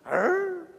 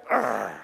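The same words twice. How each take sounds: First: Short, high-pitched grr; mock puzzled growl. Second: Very low, grumbly growl; angry crowd growl. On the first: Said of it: "Jesus sees Zacchaeus and he goes". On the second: Acted. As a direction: growl deep at someone disliked. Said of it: "Everybody sees Zacchaeus and they go".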